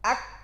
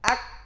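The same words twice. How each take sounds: First: The k is held with no breath released. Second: The k is released with audible flowing breath. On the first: "Tahan naf- tahan suara dulu" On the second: "alirkan nafas"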